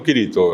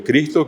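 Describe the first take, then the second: First: Kirito with an I between K and R, no S; I intercalada. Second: Cristo with CR together and S sounded; con CR. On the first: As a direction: open Cristo into three syllables, Kirito. (Kirito, con una I en el medio) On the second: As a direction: say Cristo in two syllables. (Cristo, con CR junta y la S) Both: Shown as a demonstration. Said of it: "Una I en el medio".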